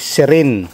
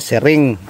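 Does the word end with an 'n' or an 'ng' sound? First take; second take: n; ng. First: The word ends with an n sound. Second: The word ends with an ng sound. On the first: The speaker calls it right. "Sabi sa akin ay sirin" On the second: The speaker calls it wrong. "hindi pala siring"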